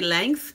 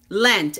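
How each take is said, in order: First: The word ends with a 'th' sound. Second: The word ends with a 't' sound. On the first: The speaker calls it wrong. "if I hear one more person say length" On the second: The speaker calls it right. "It's Lent"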